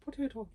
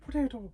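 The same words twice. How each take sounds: First: High, hammy Irish brogue on one word; leprechaun-style Irish accent. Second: Put-on high leprechaun-style Irish accent. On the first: Pretend. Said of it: "Can you do an Irish accent?". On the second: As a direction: ham up an Irish brogue. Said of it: "You sound like a leprechaun".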